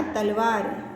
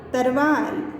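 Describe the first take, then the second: First: "तलवार" with l before the v; a clear l in "तलवार"; correct pronunciation. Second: "तरवार" with r in place of l; incorrect form. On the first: Teacher gives students the pure word, correct pronunciation. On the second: Teacher reads out the word to be corrected, incorrect form. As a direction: say "तरवार", an r before the v. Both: Shown as a demonstration. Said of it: "इसका शुद्ध शब्द होगा तलवार".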